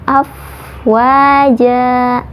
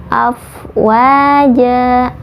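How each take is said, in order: No difference in how they are said.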